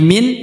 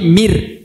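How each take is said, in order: First: The word ends with a clear n sound. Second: The n merges into an r sound. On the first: The speaker calls it wrong. "bukan lagi min" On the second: The speaker calls it right. "tapi mir"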